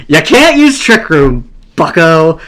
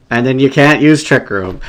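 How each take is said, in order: First: Crowing with glee; triumphant taunt. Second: Said in the usual way. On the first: Real, not acted. Taunts opponent, repeating it triumphantly.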